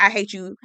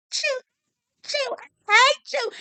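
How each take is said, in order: First: Said in the usual way. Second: High, slow sobbing mock cry through tears; imitating sobbing. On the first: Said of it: "you know the". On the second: Recapper mimics Haley breaking down, sobbing high. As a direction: mimic her choking out the words while crying. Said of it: "He's starting to kinda do that".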